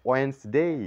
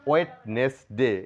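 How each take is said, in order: First: It is said as two parts, without the d. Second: It is said as three parts, with a d. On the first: The speaker calls it right. "বলবো ওয়েন্সডে" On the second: The speaker calls it wrong. "ওয়েটনেস ডে না বলে"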